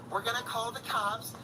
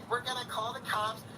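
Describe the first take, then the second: No difference in how they are said.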